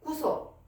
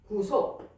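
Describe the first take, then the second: First: The word's pitch falls low. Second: The word carries a marked stress. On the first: Being caught and held. "밑으로 내려오고" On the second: Being redeemed by a ransom paid. "요거는 여기에 강세가 되고"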